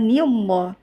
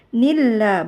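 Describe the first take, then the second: First: The l in lah is heavy and thick. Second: The l in lah is light and thin. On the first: The speaker calls it wrong. "bukan nillah" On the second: The speaker calls it right. "Lafzul jalalanya dibaca tipis karena ni huruf tipis"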